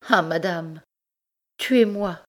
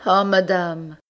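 First: High, anguished plea; desperate plea. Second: High, loud despairing cry; anguished cry. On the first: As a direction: cry out in despair. Desperate wife begs to die. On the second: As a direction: cry out from your knees. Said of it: "cria Rose toujours agenouillée". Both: Acted.

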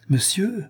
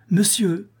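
First: High call to wake him; high sharp call of monsieur. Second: Higher, louder call while shaking him; urgent shout of monsieur to wake him. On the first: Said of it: "s'écria la jeune femme". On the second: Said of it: "s'écria la jeune femme en lui frappant sur l'épaule". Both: Acted.

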